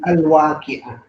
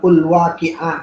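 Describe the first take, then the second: First: The word begins with an a vowel. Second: The word begins with an u vowel. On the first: The speaker calls it right. "tapi al-waqi'ah" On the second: The speaker calls it wrong. "bukan ul-waqi'ah"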